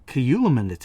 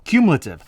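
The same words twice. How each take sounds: First: Cumulative slurred into kʰəjuləmɛnə; fumbled word. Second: Cumulative said cleanly as KYOOM-luh-tiv; word finally right. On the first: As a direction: stumble over cumulative, syllables jumbled. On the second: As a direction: land cumulative crisply at last. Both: Shown as a demonstration. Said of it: "when you try to speak it out your mouth after you've had a drink".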